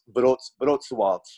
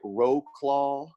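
First: The name is said the local Polish way. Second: The name is read as English spelling suggests. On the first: The speaker calls it right. "but it's pronounced Wrocław" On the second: The speaker calls it wrong. "It looks like Roclaw"

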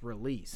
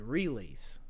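First: The stress falls on the second syllable. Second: The stress falls on the first syllable. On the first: The speaker calls it right. "It's release" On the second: The speaker calls it wrong. "You added the emphasis on the wrong part of that word. You said release"

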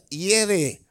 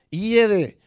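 First: It is said with a silent initial h. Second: The same.

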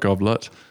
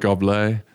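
First: The word has an English pronunciation. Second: The word has a French pronunciation. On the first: "not Goblet" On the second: "in France you call it Goblet"

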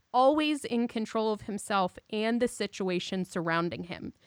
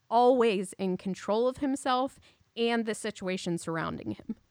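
Both takes have the same delivery.

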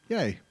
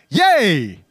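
First: It is said flatly, without excitement. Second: It is said with excitement.

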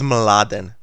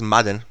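First: The name begins with the cluster m-l. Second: The l sound is dropped, giving m-a-d. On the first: The speaker calls it right. "So my name is Mladen" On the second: The speaker calls it wrong. "they pronounce it as Madden"

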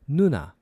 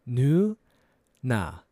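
First: It is said faster. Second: It is said slowly.

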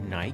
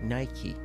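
First: The name ends on a consonant sound. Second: The name ends on an 'ee' vowel. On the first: The speaker calls it wrong. "تلفظ غلط نایک" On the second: The speaker calls it right. "تلفظ صحیح نایکی"

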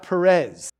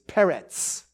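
First: The name ends in a buzzing z sound. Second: The name ends in a sharp ts sound. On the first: The speaker calls it wrong. "It's not Perez" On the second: The speaker calls it right. "It's Peretz. That's how the name is"

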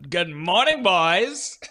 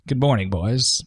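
First: It is said in an exaggerated, cocky way. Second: It is said in a plain, understated way.

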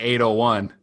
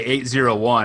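First: The middle digit is read as 'oh'. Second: The middle digit is read as 'zero'. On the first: The speaker calls it right. "I say 801" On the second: The speaker calls it wrong. "I don't say 801"

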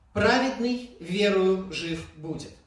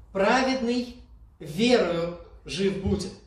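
No difference in how they are said.

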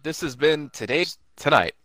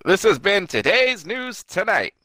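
First: It is said in a plain, ordinary voice. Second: It is said in a put-on newscaster voice.

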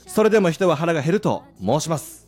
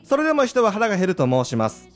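First: It pauses, then pushes the last word strongly. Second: It runs on without a pause before the end. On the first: The speaker calls it right. "最後の申しますをプッシュすると" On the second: The speaker calls it wrong. "ではなく"

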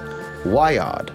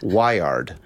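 First: It is said with a British-Australian accent. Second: It is said with an American accent. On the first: The speaker calls it right. "It's hard in American English, but it's Wyod" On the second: The speaker calls it wrong. "if I don't put on like a British Australian accent, it's Wyod. Which is kind of wrong"

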